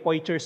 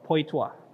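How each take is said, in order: First: It is read aloud as spelled, letter by letter. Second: It is said the French way, ending in 'twa'. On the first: It is a simplified local reading. "kung dahil Pilipino tayo, sige, Poitiers na lang" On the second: It is the true native pronunciation. "yung totoong pronunciation nito"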